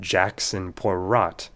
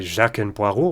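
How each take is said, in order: First: The final consonants of the names are pronounced. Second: The final consonants of the names are silent. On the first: The speaker calls it wrong. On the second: The speaker calls it right. "consonants that just don't get pronounced when they're at the end"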